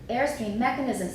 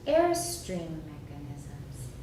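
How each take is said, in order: First: The pitch rises again after the first syllable. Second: The pitch stays low after the first syllable. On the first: The speaker calls it wrong. "if we go up again, we've got stress" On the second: The speaker calls it right. "That's how we do it"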